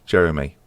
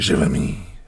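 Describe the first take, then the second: First: The name is said with an English pronunciation. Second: The name is said with a French pronunciation. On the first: "he's a Frenchman called Jeremy" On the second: "I guess if we're going to be particular"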